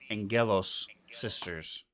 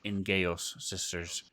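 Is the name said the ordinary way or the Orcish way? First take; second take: ordinary; Orcish. First: The name is said in the ordinary way. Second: The name is said in an Orcish way.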